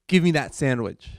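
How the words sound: It is said in an angry tone.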